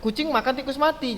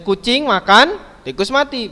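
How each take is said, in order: First: It runs on without a pause after makan. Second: There is a pause after the word makan. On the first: The cat is eating a mouse that is already dead. "Jadi kucingnya tadi makan tikus yang udah mati begitu" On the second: A cat is eating, and separately a mouse is dead. "Berarti kucing makan, ada kucing yang makan, kemudian ada tikus mati"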